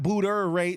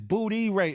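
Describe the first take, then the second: First: The first part sounds like 'booter'. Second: The first part sounds like 'booty'. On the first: The speaker calls it wrong. "It's not booter rate" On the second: The speaker calls it right. "it's booty rate"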